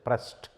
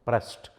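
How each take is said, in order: Both takes have the same delivery.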